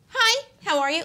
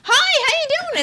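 First: It is said with little energy. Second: It is said with lots of energy.

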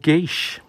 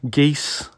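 First: Hard g start, one syllable ending in 'eesh'. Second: Hard g start, one syllable ending in 'eess'. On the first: "or geesh" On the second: "more correctly pronounced geese"

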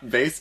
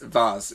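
First: The word is said in a plain, everyday way. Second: The word is said in a posh, refined way. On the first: "you said vase first" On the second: "then you tried to get all fancy on me"

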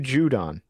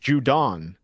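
First: The stress is on the first syllable. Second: The stress is on the second syllable. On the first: The speaker calls it right. "Matthew Judon" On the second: The speaker calls it wrong. "Not Judon. It's not a capital D-O-N"

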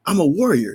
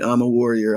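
First: It is said powerfully, with energy. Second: It is said flatly, without energy.

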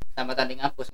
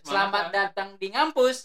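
First: It is said in a flat, even tone. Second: It is said in a cheerful, lively tone.

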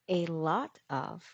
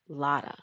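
First: All three words are said fully and separately. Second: The words blend into one reduced word. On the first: "A lot of becomes lotta" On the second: "A lot of becomes lotta"

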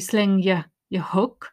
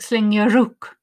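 First: The h at the start of hook is pronounced. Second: The h at the start of hook is dropped. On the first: "there's a weak sound" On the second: "if you drop the H"

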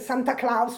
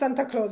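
First: The name is pronounced the German way. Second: The name is pronounced the English way. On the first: "I say Santa Claus because I'm German" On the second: "in English it's Santa Claus"

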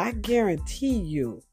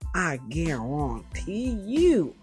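First: It is said in the speaker's ordinary accent. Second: It is said in a southern American accent.

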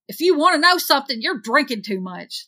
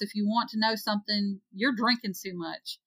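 First: It is said with an exasperated tone. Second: It is read plainly, without exasperation.

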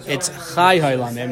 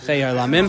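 First: The first word has an 'ai' vowel. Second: The first word has an 'ei' vowel. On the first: The speaker calls it right. "Kav HaChaim says that no, it's Chay Olamim" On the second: The speaker calls it wrong. "not Chay Olamim"

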